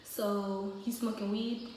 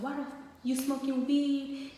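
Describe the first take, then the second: First: Slow, even, calm question; unhurried, level dad asking. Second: Higher-pitched angry dad question; retold outburst, voice pitched up; imitated going off. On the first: Retold or imitated. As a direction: imitate dad asking calmly, in no rush. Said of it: "he's real calm". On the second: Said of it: "he started going off".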